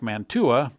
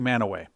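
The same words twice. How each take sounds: First: It is pronounced the way the spelling suggests. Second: It is pronounced the way the locals say it. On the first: "it looks like Mantua" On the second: "but they say Mantua"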